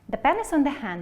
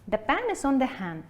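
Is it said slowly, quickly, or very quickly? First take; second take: very quickly; quickly. First: It is said as fast as possible. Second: It is said somewhat quickly.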